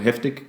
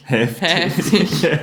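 First: The middle vowel is short and plain. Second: The middle vowel is long and drawn out. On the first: The speaker calls it wrong. "Wenn du einfach nur so heftig gesagt hättest... Hätte es nicht dieselbe Wirkung" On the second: The speaker calls it right. "Es ist schon so dieser langgezogene mittlere Laut"

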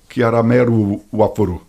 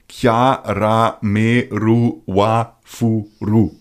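First: It is said quickly. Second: It is said slowly, almost spelled out.

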